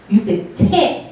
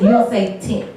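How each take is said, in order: First: "tint" punched with emphasis; stress on tint. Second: Said in the usual way. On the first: Shown as a demonstration. Comedian teaching the crowd to say it, emphasis on "tint". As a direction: lean hard on the word "tint". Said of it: "You gotta put some emphasis on the tint". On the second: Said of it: "put some emphasis on the tint".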